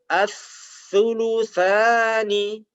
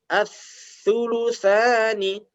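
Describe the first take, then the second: Both takes have the same delivery.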